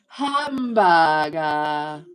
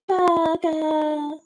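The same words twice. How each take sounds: First: It is said in the speaker's ordinary voice. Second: It is said in a put-on Japanese woman's voice.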